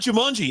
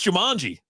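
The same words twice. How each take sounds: First: The vowel after the M sounds like 'oo'. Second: The vowel after the M sounds like 'ah'. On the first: The speaker calls it wrong. "he also follows it up with a U" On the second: The speaker calls it right. "There's an A after that"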